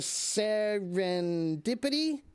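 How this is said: The word is said hesitantly, after a pause. It sounds as if it might be wrong. The speaker calls it wrong. "that's not confident"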